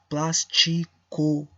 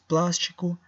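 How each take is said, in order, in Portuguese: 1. Cada letra é pronunciada de forma clara e completa. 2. Alguns sons são reduzidos na fala do dia a dia. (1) "eu vou dizer com todas as letras" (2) "nós sim decimos plástico"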